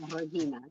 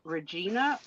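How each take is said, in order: First: The G is not sounded in the name. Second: The G is clearly sounded in the name. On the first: "or you don't say the" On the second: "So you say the G"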